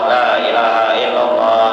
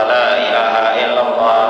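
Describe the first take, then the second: No difference in how they are said.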